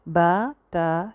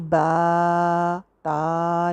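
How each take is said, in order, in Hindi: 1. स्वर सामान्य लंबाई में रखे जाते हैं। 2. स्वर बहुत ज़्यादा लंबे खींचे जाते हैं। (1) "इससे ज़्यादा लंबा नहीं" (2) "बा ता नहीं करना"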